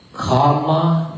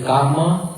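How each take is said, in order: First: "karma" the Pali way; demonstrating "karma" in Pali pronunciation. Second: "karma" as said in the speaker's country; demonstrating "karma" in a home-country pronunciation. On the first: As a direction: say "karma" clearly as the Pali word. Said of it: "that is Pali". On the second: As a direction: say "karma" the local way. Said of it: "is like my country". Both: Shown as a demonstration.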